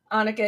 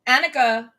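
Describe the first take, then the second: First: Annika with an open AH as in "father"; second pronunciation. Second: Annika with a short A as in "cat"; first pronunciation. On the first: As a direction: say Annika starting "AH-nika". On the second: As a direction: say Annika starting like "Ann". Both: Real, not acted. Name said two ways, self-correcting.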